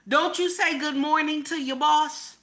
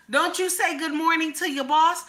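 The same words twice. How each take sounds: The two takes are said the same way.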